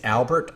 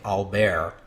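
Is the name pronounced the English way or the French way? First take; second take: English; French. First: The name is pronounced the English way. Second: The name is pronounced the French way. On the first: The speaker calls it wrong. "I've been referring to the king as Albert all this time" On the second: The speaker calls it right. "I ought to be saying Albert"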